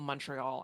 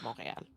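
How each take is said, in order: First: The name is said with an English pronunciation. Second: The name is said with a French pronunciation. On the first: "which we call Montreal" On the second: "Unless I'm speaking French, in which case I'll call it Montréal"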